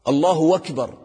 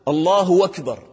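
The two takes are said the same way.

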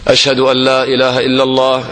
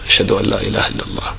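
First: The phrase is said in a raised voice. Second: The phrase is said softly under the breath. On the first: The testimony is repeated aloud for others to hear. "ثم ترجع وتقولهما بصوت مرتفع" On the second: The testimony is said privately to oneself first. "ثم تسر في نفسك تقول"

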